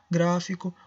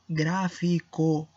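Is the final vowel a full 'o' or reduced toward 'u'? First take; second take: reduced; full. First: The final vowel is reduced toward u. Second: The final vowel is a full, clear o. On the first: It is just ordinary speech. "se eu estou simplesmente falando, não importando com essa ênfase" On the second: The word itself is being emphasized. "quando eu quero poner uma ênfase especificamente em la palavra"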